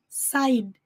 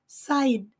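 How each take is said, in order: Both takes have the same delivery.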